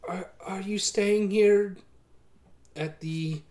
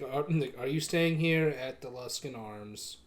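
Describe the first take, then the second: First: Innkeeper voice. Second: Flat, even innkeeper drone; monotone voice. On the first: GM voicing innkeeper first take. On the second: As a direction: say it with no inflection at all. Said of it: "very monotone voice". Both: Acted.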